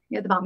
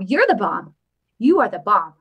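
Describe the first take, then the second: First: Said in the usual way. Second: Louder, punchier "You are the bomb"; emphatic praise. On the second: Shown as a demonstration. Vlogger praising a donor in chat, louder and emphatic. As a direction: stress each word of praise.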